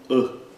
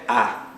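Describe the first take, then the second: First: The vowel is closed and short. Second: The vowel is open and drawn out. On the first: The speaker calls it right. "É um A curto e fechado" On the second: The speaker calls it wrong. "Não é A"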